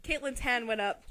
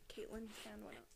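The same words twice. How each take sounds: First: Said in the usual way. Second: A soft, breathless whisper. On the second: A narrator's reading. Narrator repeating the line as a hushed aside.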